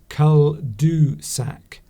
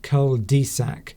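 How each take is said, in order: First: The middle syllable has a French rounded vowel. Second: The middle syllable has an English vowel. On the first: The speaker calls it right. "you're supposed to pronounce that cul-du-sac" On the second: The speaker calls it wrong. "not cul-de-sac"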